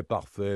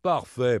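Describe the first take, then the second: First: Said in the usual way. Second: Louder, mocking "Parfait" with a falling sneer; sarcastic "Parfait" thrown out. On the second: A narrator's reading. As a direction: scoff the word "Parfait". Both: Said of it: "Le comte ricana".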